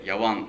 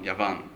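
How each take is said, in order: First: The middle consonant is a w sound. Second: The middle consonant is a v sound.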